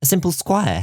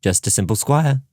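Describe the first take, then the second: First: Bloom teasing "A simple squire", high rising pitch on "squire"; playful tease, "simple squire" lifted high. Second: Mock solemn. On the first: Acted. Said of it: "not as humble as you sound". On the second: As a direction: say "simple squire" with put-on gravity. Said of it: "with mock solemnity".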